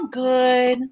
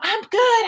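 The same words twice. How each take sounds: First: It is said flatly with little energy. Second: It is said brightly with lively energy. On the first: Something is off. "when you answer like that" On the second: The person is happy. "more of a pep in your step or in your voice"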